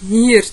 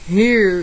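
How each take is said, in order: First: It is said in a São Paulo city accent. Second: It is said in a São Paulo interior accent. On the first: "na capital paulista é mais ou menos" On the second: "No interior paulista é"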